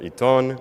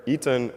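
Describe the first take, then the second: First: Iton with the second syllable stressed, full "ton". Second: Iton with the weight on the first I, the second vowel reduced; stress on first syllable. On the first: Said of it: "with the stress on the second syllable". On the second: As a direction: say "Iton" as EE-tun, falling. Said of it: "with stress on the first I". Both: Retold or imitated.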